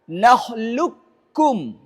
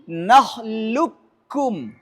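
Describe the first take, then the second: Both takes have the same delivery.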